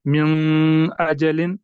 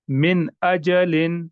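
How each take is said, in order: First: "मिन अजलिन" with the न of मिन hummed through the nose; slow wrong demo, मिन nasalised with ghunna; nasalised noon. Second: "मिन अजलिन" with the न of मिन fully pronounced, no nasal hum; slow, careful recitation, नून sounded out plainly; clear noon. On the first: Teacher shows students the wrong nasal reading. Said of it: "मैंने ऐसे नहीं पढ़ा". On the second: Teacher recites to students, नून said clearly. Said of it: "नून को बिल्कुल जाहिर करके पढ़ा". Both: Shown as a demonstration.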